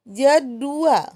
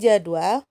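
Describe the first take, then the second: First: The word has three syllables, with a u. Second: The word has two syllables, with a w. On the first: The speaker calls it wrong. "J D U A L. Nah, itu tidak baku" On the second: The speaker calls it right. "J A D W A L, itu baku"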